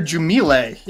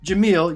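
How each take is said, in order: First: The name is said with a French-sounding twist. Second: The name is said plainly, without a French twist. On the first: The speaker calls it wrong. "you put like some sort of French twist on it" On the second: The speaker calls it right. "When I say your name right"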